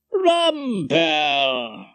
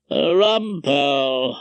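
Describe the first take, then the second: First: Long, drawn-out welcoming call. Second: Slow, drawn-out unwelcome call; unloved judge's voice. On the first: Head of chambers greeting his guest, welcoming. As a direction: greet him by stretching the name out. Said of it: "stepped forward with a welcoming". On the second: Judge interrupting Rumpole at dinner, unwelcome drawl. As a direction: drag the name out like an unwelcome judge. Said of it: "a well-known and unloved voice say". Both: A narrator's reading.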